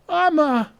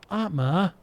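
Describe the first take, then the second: First: Atma shouted higher and louder; urgent cry of the name Atma; alarmed shout. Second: Said in the usual way. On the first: Acted. Calling to fallen companion.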